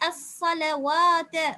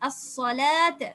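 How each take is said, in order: First: A w sound is pronounced before the long vowel. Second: The long vowel is pronounced with no w sound. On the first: The speaker calls it wrong. "அப்படி ஓத முடியாது" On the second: The speaker calls it right. "இது வா அல்ல"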